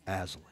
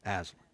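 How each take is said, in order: Both takes have the same delivery.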